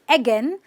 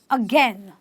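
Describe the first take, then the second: First: The first vowel is an open 'eh' sound. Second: The first vowel is a relaxed 'uh' sound. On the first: The speaker calls it wrong. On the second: The speaker calls it right.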